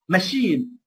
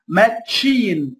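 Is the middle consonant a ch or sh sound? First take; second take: sh; ch. First: The middle consonant is a soft sh sound. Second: The middle consonant is a ch sound. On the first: The speaker calls it right. "ما اقولش هنا ماتشين" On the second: The speaker calls it wrong. "ما اقولش هنا ماتشين"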